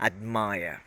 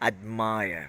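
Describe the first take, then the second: No difference in how they are said.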